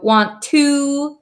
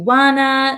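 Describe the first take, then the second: First: Both words are said fully, with a clear 'to'. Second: The words blend into one reduced word, 'wanna'.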